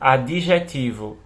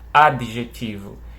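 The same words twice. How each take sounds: First: The d is followed by an added i sound. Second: The d runs straight into the next consonant. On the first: This is the everyday informal pronunciation. "esse D aqui com som de bi" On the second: This is the careful, ideal pronunciation. "bem rápido assim, né, com o som cortado"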